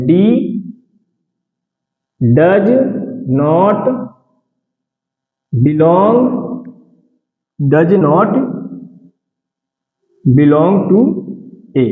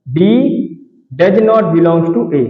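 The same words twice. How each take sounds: First: Each word set apart with long pauses; slow word-by-word reading with pauses; word by word dictation. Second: Slow, even reading of the whole phrase; slow dictation in one go. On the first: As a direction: dictate it one word at a time so students can write. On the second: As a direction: read it out slowly for students to copy. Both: Shown as a demonstration. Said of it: "इसको हम ऐसे पढ़ेंगे".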